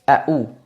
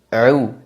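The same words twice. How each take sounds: First: The middle sound is a plain glottal stop. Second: The middle sound is a throaty ain. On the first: The speaker calls it wrong. "jangan sampai dibaca" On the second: The speaker calls it right. "tapi a'u"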